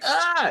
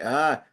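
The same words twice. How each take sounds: First: High-pitched yelp of sudden shock; jolted yelp. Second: Said in the usual way. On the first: Retold or imitated. Man retelling an icy feeling turning to pain, yelping. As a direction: cry out as if zapped. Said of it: "this electric jolt that went through". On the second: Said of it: "like, half asleep or something".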